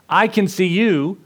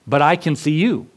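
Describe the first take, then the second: First: "I can see you" slow, higher, with I pushed hard; stress on I. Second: Said in the usual way. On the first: Acted. Older brother reassures the trapped boy, slow with I stressed. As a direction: lean into "I" slowly to reassure.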